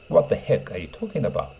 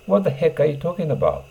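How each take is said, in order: First: Said in the usual way. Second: Annoyed. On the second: Shown as a demonstration. Teacher acts out an irritated speaker, raising the pitch. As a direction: snap it out in irritation. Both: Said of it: "The heckを挿入します".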